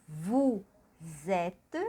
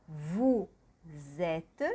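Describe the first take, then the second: No difference in how they are said.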